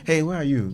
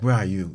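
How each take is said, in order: First: It is asked in a casual, friendly tone. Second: It is asked in a harsh, demanding tone.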